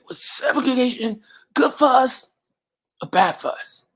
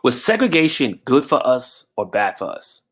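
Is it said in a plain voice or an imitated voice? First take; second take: imitated; plain. First: It is said imitating the man's own voice. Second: It is said in the speaker's plain voice.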